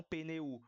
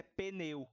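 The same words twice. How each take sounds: First: "pneu" broken as pe-ne-U, U on its own; hiato errado. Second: "pneu" as pe-NEU, E stronger than U in one glide; ditongo junto. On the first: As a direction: drag "pneu" apart so the U is a separate syllable. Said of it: "não pneu". ("pneu" com o U separado e destacado) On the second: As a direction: say "pneu" with EU held together. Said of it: "Por isso é pneu e não pneu". ("pneu" com EU junto, E mais forte) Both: Shown as a demonstration.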